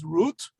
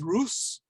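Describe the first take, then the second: First: The name ends with a t sound. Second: The name ends with an s sound. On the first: This is the modern pronunciation. "We would pronounce it as Ruth"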